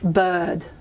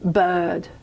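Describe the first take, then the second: No difference in how they are said.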